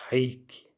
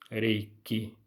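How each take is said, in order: First: The word begins with an H sound. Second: The word begins with an R sound. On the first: "É um som de H" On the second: "eu prefiro pronunciar reiki, que é com R"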